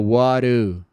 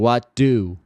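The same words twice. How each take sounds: First: The d in 'do' sounds like a tapped r. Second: The d in 'do' is a full d sound. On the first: "fica what do" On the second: "em vez de what do"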